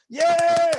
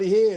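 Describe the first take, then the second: First: Very high, long, loud yell; full scream. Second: Short, cut-off shout; a brief yeah that doesn't let go; too-small yell. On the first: Coach shows student the right way, drawn-out high scream. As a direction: let the yeah rip and hold it. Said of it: "Like that, louder". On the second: Coach shows student the wrong scream, short yell. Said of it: "No, not". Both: Shown as a demonstration.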